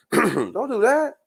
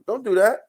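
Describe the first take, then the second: First: "Don't do that" drawn out slowly, rising at the end; slow warning. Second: Said in the usual way. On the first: Shown as a demonstration. To the woman from New York, a slow drawn-out warning. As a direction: stretch out every word of "Don't do that" as a warning.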